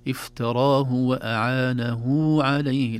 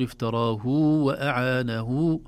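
First: افتراه short hu, وأعانه with long huu before عليه; right reading. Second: افتراه وأعانه with افتراه given a lengthened hu; wrong reading. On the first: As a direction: lengthen only the hu of وأعانه. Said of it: "فنقول". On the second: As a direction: mistakenly stretch the first hu. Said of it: "لا نقول". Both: Shown as a demonstration.

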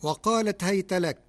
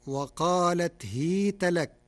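First: Raised هيت with an open ha; Hafs reading. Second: هيت said as hīta with a kasra; Warsh reading. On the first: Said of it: "كلمة هيت". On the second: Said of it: "بكسر الهاء". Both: Shown as a demonstration.

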